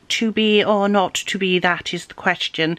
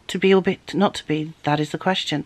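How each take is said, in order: First: It is spoken slowly and deliberately. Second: It is spoken quickly and naturally. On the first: The speaker calls it wrong. "received pronunciation is very slow, very deliberate" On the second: The speaker calls it right. "You can just say it"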